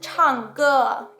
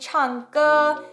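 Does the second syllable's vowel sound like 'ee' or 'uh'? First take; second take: uh; ee. First: The second vowel is a back, 'uh'-like sound. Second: The second vowel is a high, 'ee'-like sound. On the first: The speaker calls it right. "anything that has the E sound like ge" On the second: The speaker calls it wrong. "it's not gonna be 唱歌. If it's too high up in your mouth"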